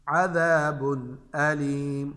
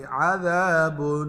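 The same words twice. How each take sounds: First: Slow, lower "अज़ाबुन अलीम" with a clear n; izhar recitation. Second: "अज़ाबुन" ending in a long nasal hum; wrong ghunna. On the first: Teacher gives students a tanween example, slow clear n in "अज़ाबुन अलीम". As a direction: draw out "अज़ाबुन अलीम", no hum on the n. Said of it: "जाहिर करके पढ़ेंगे". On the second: Teacher shows students what to avoid, long hummed n in "अज़ाबुन". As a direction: drag the final n of "अज़ाबुन" through the nose. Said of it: "ये नहीं पढ़ेंगे". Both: Shown as a demonstration.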